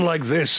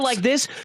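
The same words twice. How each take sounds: First: A deeper, older voice with some rasp. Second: A light, youthful voice with no rasp. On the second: "age fifteen or twenty"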